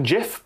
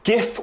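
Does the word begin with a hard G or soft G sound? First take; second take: soft G; hard G. First: It begins with a soft G sound. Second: It begins with a hard G sound. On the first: "It is more popular than GIF" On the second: "GIF with a hard G"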